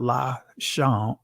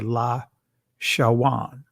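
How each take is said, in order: First: The second vowel is a plain o sound. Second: A w sound comes before the second vowel. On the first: This is the later way of saying the word. The speaker calls it wrong. "not la shon" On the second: This is how the word sounded in ancient times. The speaker calls it right. "the ancient pronunciation of this word right here would be"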